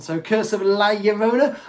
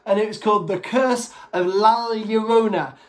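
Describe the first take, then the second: First: Llorona said as yo-RO-na; Llorona, double L as a y; Llorona with a y sound. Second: Said in the usual way. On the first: Shown as a demonstration. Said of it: "two L's makes, like, a yes sound". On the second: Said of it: "I may be pronouncing this wrong".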